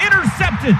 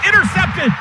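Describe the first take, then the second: No difference in how they are said.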